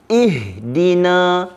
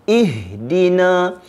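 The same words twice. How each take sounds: No difference in how they are said.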